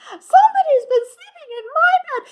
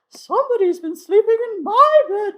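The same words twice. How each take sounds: First: It is said in Baby Bear's small voice. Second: It is said in Mama Bear's medium voice.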